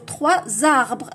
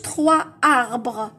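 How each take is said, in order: First: A z sound links the two words. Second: The words are said without a linking z sound. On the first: The speaker calls it right. "نقولوا ثلاثة زاربغ لا ليزون" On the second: The speaker calls it wrong. "ما نقولوش"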